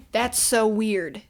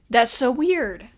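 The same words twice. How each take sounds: First: Incredulous. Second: Louder, higher, slow disbelieving exclamation; incredulous. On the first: Reacting to plot twist. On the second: Reviewer reacting to the twist, loud and disbelieving. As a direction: stretch it out, even more baffled. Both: Real, not acted.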